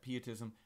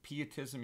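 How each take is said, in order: First: The word does not start like 'piety'. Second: The word starts with the sound of 'piety'. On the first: "you could pronounce that pietism" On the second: "I use pietism just because piety is is on my mind"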